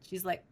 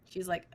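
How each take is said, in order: The two takes are said the same way.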